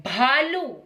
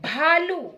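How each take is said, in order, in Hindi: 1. पहले व्यंजन में साँस की तेज़ फूँक है। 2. पहले व्यंजन में साँस की तेज़ फूँक है।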